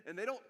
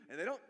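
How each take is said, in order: Both takes have the same delivery.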